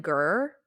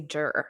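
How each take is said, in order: First: "ger" with a hard G as in go. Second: "jer" with a soft J sound as in jam. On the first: Host shows how a client's surname really ends, hard G on "ger". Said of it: "it ends in". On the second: Host admits their habitual slip on a client's name, soft J on "jer". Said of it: "but I always say". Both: Shown as a demonstration.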